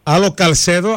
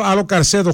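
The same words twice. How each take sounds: First: "Καλσέδο" with an L before the s; distinguishing "Καλσέδο" by its L sound; contrasted name, L. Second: "Καρσέδο" with an R before the s; distinguishing "Καρσέδο" by its R sound; contrasted name, R. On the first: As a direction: say "Καλσέδο" carefully, with a clear L. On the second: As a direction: say "Καρσέδο" carefully, with a clear R. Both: Shown as a demonstration. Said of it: "πρόσεξε".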